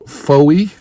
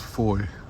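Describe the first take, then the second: First: The name does not rhyme with boy. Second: The name is one syllable, rhyming with boy. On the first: The speaker calls it wrong. "I guess I mispronounced it" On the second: The speaker calls it right. "It's Foy"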